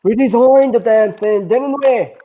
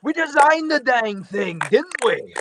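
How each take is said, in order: First: Put-on high, slow, loud old robot; old Jetfire voice. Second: Put-on high, slow old robot; old Jetfire voice. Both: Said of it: "the ending of that actually sounded like".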